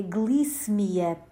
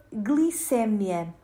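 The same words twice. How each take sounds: First: Glicemia with the stress on MI. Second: Glicémia with the stress on CÉ, open E. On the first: Language teacher gives listeners the correct form, glicemia stressed on MI. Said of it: "pronuncia-se com E fechado". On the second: Language teacher shows listeners the mistaken form, glicémia stressed on CÉ. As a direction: say glicémia stressing the second syllable. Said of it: "É um mito". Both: Shown as a demonstration.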